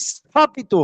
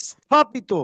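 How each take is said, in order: No difference in how they are said.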